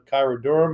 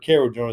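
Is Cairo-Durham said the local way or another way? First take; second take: another way; local. First: The name is said in a non-local pronunciation. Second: The name is said in the local pronunciation.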